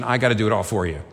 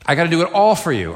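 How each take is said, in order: First: Said in the usual way. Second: Louder, emphatic repeat. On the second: Shown as a demonstration. Preacher voicing Jesus to the congregation, loud emphatic repeat. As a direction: raise the voice higher and hit "all" hard.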